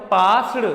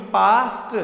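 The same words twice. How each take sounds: First: पास्ड said with a d sound at the end; the mistaken पास्ड, ending on d; wrong pronunciation. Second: पास्ट said with a crisp t at the end; correct pronunciation. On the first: Teacher shows students the wrong way, पास्ड ending in d. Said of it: "ये पास्ड नहीं". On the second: Teacher corrects students, पास्ट ending in t. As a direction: end पास्ट on a clear t, not d. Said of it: "ये पास्ड नहीं, पास्ट". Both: Shown as a demonstration.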